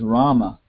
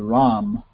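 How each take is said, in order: First: The name ends with an open final vowel. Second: The name ends on the consonant, vowel dropped. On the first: This is the classical Sanskrit form. "the real pronunciation is Rama, That's the Sanskrit pronunciation" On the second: This is the everyday Bengali and Hindi form. "both in Bengali and Hindi, you don't say that. You say Ram"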